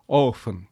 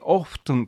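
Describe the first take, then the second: First: The T sound in the word is silent. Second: The T sound in the word is pronounced. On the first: "まあ大部分はoften、T は無声音になります" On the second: "実際にoften と発音する人もいますが"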